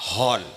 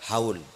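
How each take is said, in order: First: The vowel is a single plain o. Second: The vowel glides from a to u. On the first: The speaker calls it wrong. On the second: The speaker calls it right.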